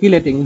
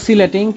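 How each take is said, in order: First: The word begins with a k sound. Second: The word begins with an s sound. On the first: "কেউ বলে কিলেটিং" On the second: "কেউ বলে সিলেটিং"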